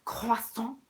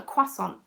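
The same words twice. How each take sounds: First: "croissant" with French r and silent t; French pronunciation. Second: "croissant" as anglicised KWA-son; English pronunciation. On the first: Choosing a pastry name, "croissant" in French. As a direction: say "croissant" the French way, krwa-SON. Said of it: "Do I call it a croissant". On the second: Choosing a pastry name, "croissant" in English. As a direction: say "croissant" the British way, no French r. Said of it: "or do I call it a croissant". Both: Shown as a demonstration.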